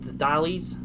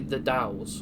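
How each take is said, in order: First: The name is said with two syllables. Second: The name is said with one syllable. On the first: The speaker calls it wrong. "I was corrected on my pronunciation" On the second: The speaker calls it right. "It's actually the Dowls"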